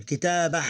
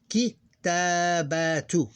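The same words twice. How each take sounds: First: "Kitabah" with a long "ta", stopping on a breathed h; vowel-less ending. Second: "kitabatu" drawn out slowly, each syllable apart, ending in "tu"; full-vowel reading. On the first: Teacher correcting themselves because we ignore the vowel, vowel-less ending. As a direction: say "Kitabah" with no vowel after the final h. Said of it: "Because we ignore the vowel". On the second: Teacher showing how we pronounce it mid-sentence, full-vowel reading. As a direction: slowly sound out "kitabatu" with the final "tu" voiced. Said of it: "That's how we pronounce it".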